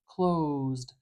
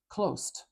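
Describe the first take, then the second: First: A long vowel leads into buzzing z and d. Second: It ends with hissing s and t sounds. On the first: The speaker calls it right. "do you hear how long I'm saying that sound?" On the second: The speaker calls it wrong. "like make that an S and a T, we don't want that"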